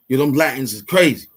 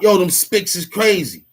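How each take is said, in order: First: Said in the usual way. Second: Higher-pitched mock call-out; half-raised mock shout; mock yell. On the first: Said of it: "We just say who they are". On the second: Shown as a demonstration. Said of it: "We don't yell out".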